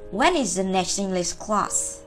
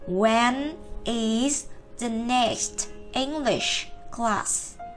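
First: The sentence is said quickly, words linked together. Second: The sentence is said slowly, word by word. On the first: "Còn khi chúng ta đọc nhanh" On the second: "chúng ta cứ đọc từng từ một"

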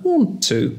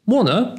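First: The two words are said fully and separately. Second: The two words merge into a quick 'wanna'.

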